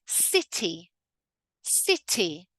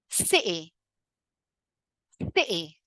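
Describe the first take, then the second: First: "city" with a crisp released T; "city" as "si-tee", T clearly aspirated; full emphasized T. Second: "City" with the T cut completely; "Ci'y", T swapped for a glottal stop. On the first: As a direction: sound the T fully in "city". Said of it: "pronounce it with a full emphasized T". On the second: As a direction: catch in the throat for the T in "City". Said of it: "See how I totally cut the T?". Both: Shown as a demonstration.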